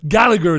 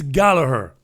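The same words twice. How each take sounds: First: The name is said the Manchester English way. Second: The name is said the Irish way.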